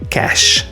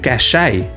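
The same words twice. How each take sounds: First: The word is said the English way. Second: The word is said the French way. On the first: "in English, we drop the accent. It's just cache" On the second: "in French, it's pronounced closer to cache"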